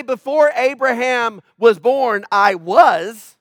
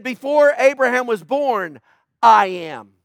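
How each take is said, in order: First: Said in the usual way. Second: "I am" said slow and loud, as a bold final claim; stress on I am. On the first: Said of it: "He didn't say". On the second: Shown as a demonstration. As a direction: lean on "I am" to close the line with weight. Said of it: "He said".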